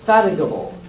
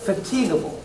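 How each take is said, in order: First: The second vowel is a weak schwa. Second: The second vowel is a long e. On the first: "Here you have the schwa" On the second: "Here you have the emacron"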